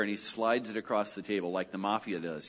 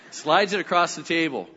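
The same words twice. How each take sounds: First: Said in the usual way. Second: Slides it across the table, louder, punching "Slides"; emphatic repeat. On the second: Shown as a demonstration. Pastor repeating George's mafia-style move to the congregation, louder. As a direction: hit "Slides" hard, mock mafia menace.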